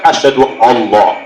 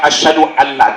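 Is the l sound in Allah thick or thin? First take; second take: thick; thin. First: The l sound is heavy and thick. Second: The l sound is light and thin. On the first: The speaker calls it wrong. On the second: The speaker calls it right.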